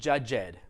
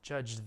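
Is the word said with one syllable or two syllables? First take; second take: two syllables; one syllable. First: The word is said as two syllables. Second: The word is said as one syllable. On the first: The speaker calls it wrong. "don't make it judged. That's not a word" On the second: The speaker calls it right. "Very small sound"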